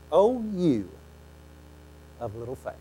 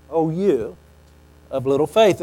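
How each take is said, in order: First: Softer, fading rebuke; gentle rebuke. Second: Said in the usual way. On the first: Acted. Jesus lifts Peter out and gently rebukes him. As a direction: say it softly, almost tender.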